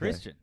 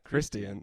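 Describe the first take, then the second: First: The word is said with two syllables. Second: The word is said with more than two syllables. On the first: "Two syllables"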